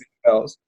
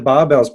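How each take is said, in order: First: The first syllable sounds like 'bear'. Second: The first syllable sounds like 'bar'. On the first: The speaker calls it right. "so it is technically bear bells" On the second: The speaker calls it wrong. "I called them barbells myself"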